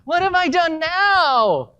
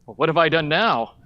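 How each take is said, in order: First: It sounds whiny and unmanly. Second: It sounds manly, calm and cool.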